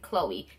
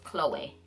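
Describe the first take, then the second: First: It is said like the everyday English girl's name. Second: It is said with the accented final E. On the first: The speaker calls it wrong. "this is how everybody pronounces it" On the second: The speaker calls it right. "it has an accent over the E. So it is actually pronounced"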